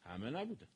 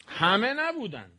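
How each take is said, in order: First: Much softer repeat, نبودن dropped low and falling; soft low-voiced repeat; quiet echo. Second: Slow and stressed, نبودن drawn out and falling; slow emphatic همه نبودن; emphatic statement. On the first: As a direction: murmur همه نبودن back to yourself. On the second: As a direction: lean hard on نبودن, slowly. Stressing a point to audience. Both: Shown as a demonstration.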